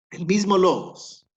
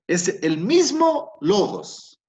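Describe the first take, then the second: First: "mismo" stressed high and loud; repeat, still hitting "mismo"; emphatic. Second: Slow, louder, higher stress on "mismo"; emphatic slow. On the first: ("mismo" acentuado alto y fuerte) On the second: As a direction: lean hard on "mismo" to show it's the same word. ("mismo" lento, fuerte y agudo) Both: Shown as a demonstration. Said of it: "Fíjate".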